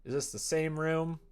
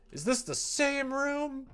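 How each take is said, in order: First: Said in the usual way. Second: Much higher, slow, stressing "this" in disbelief; incredulous repeat. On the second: Real, not acted. Gamer asking again whether it is the same room, incredulous. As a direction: ask "this" again, not believing it.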